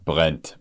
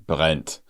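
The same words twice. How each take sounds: No difference in how they are said.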